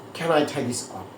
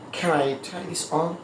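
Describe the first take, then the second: First: The words run together in two linked chunks. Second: The same.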